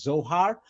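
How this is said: It is said in an English pronunciation. "in English, we pronounce it as Zohar"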